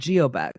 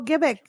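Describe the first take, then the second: First: The name begins with a 'gee' sound. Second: The name begins with a 'go' sound. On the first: It is read the way it looks on paper. The speaker calls it wrong. "we were calling it Geobec because that's what it looked like" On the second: It is said the way the locals say it. The speaker calls it right. "they're like, it is Go Gibbick"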